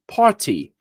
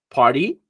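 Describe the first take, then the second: First: British "party" with a clear t; sotaque britânico. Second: American "party" with a tapped t; sotaque americano. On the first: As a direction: pronounce the t of "party" fully, British style. ("party" com sotaque britânico) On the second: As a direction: make "party" sound like "pardy", American. ("party" com sotaque americano) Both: Shown as a demonstration. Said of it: "Totalmente diferente".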